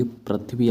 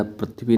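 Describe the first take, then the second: First: पृथ्वी with "thv" together; correct form. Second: पृथ्वी with a b, "prathibi"; extra vowel and b in पृथ्वी; wrong form. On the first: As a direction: say पृथ्वी as "prith-vee". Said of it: "ऐसे लिखा जाता है". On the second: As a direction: say पृथ्वी as "pra-thi-bi". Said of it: "पृथ्वी नहीं होता है". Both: Shown as a demonstration.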